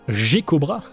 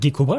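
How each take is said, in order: First: The name begins with a soft j sound. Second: The name begins with a hard g sound. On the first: "Le son G E, c'est toujours prononcé je" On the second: "je l'appelle Gekobra"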